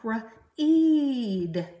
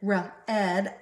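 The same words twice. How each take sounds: First: The vowel is a long e, as in reed. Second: The vowel is a short e, as in red. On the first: It refers to reading now or later. "with a long E sound" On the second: It refers to reading done in the past. "If you pronounce it with short E sound"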